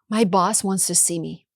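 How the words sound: The voice sounds anxious and worried. The speaker fears being in trouble. "sounds like I'm anxious, maybe in trouble"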